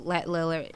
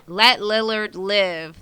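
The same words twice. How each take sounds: First: Said in the usual way. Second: Slow, careful. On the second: Shown as a demonstration. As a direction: let Lillard live, each word slow and separate. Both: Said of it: "That's a tongue twister".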